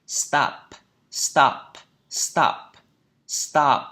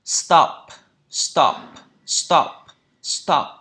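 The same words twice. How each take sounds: First: "stop" with a long American "ah" vowel. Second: "stop" with a short, round British O. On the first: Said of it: "trong Anh Mỹ, phiên âm này nó là âm A dài". ("stop" giọng Anh Mỹ, âm A dài) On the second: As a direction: punch out "stop", lips rounded on the vowel. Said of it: "Miệng tròn". ("stop" giọng Anh Anh, âm O ngắn tròn môi) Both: Shown as a demonstration.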